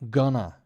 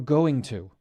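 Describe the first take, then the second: First: The words are squeezed into one quick word. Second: Both words are said in full.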